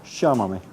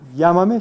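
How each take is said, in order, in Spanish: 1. El 'll' es un sonido zumbante, como 'zh'. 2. El 'll' es un sonido de 'y' suave. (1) "sino llámame ... así es la típica pronunciación de los argentinos" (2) "No se dice llámame"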